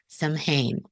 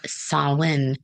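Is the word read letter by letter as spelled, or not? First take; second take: as spelled; not spelled. First: It is sounded out letter by letter. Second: It is not sounded out letter by letter.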